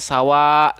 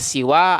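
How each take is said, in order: First: The first vowel is a. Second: The first vowel is i. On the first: "ada yang membacanya sawa" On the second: "Ada yang membacanya siwa"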